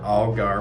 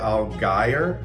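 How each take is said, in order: First: The second syllable sounds like 'gar', rhyming with car. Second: The second syllable has a long I, rhyming with fire. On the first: The speaker calls it right. "I think of the fish, the ugly fish" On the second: The speaker calls it wrong. "put that long A or I in there"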